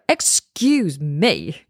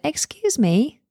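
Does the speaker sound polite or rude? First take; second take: rude; polite. First: It is said in a curt, unfriendly tone. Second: It is said in a nice, polite tone. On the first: The speaker calls it wrong. "then that's completely different" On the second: The speaker calls it right. "A nice tone"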